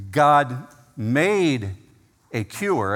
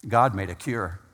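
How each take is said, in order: First: "made" hit hard and held, with a pause after it before "a cure"; stress on made. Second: Said in the usual way. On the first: Shown as a demonstration. Preacher stressing "made" to his congregation. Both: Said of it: "I want to emphasize the word made".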